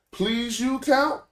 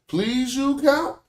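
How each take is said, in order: First: "Please you count?" said slowly, pitch climbing high into a question on "count"; rising question tune. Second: "Please you count?" slow, rising high on "count" like a real question; rising question tune. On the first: Teacher showing how tone turns a sentence into a question, rising tune. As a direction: ask it, voice sweeping up at the end of "count". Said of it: "we don't have that same tone inflection to say".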